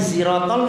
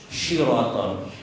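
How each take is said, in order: First: The word begins with a plain s sound. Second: The word begins with an sh sound. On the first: The speaker calls it right. "Sin. Siratal itu masih benar. Bahkan siratal enggak apa-apa" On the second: The speaker calls it wrong. "lumayan daripada syiratal"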